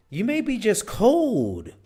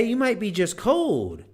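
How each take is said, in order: First: High, loud, slow mock cold voice; mock shivering cold. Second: High, loud mock shiver; mock shivering cold. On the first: Demonstrating crossed arms as just being cold. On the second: Showing the listener a cold shiver. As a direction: act out being cold. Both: Shown as a demonstration. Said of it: "If you're doing this".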